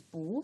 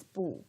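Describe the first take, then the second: First: 不 said with a rising second tone. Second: 不 said with a falling fourth tone. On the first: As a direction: lift the pitch through 不, like bú. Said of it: "the pronunciation of 不". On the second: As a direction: drop the pitch sharply on 不, like bù. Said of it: "it's a little bit strange". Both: Shown as a demonstration.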